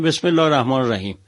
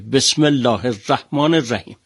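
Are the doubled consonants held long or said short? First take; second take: short; long. First: The doubled consonants are said short. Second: The doubled consonants are held long. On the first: The speaker calls it wrong. "خیلی از گوینده های ما میگن" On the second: The speaker calls it right. "سه تا تشدید داره"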